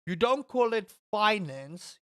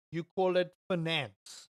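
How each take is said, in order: First: Finance said FINE-ance, long i first; FINE-ance pronunciation. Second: Finance said fi-NANCE, stress on the end; fi-NANCE pronunciation. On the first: Someone correcting the streamer, finance said as FINE-ance. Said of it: "No, it's finance. It's not finance". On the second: Someone correcting the streamer, finance said as fi-NANCE. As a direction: shorten the first vowel of finance, hit NANCE. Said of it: "do you call it finance?". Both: Retold or imitated.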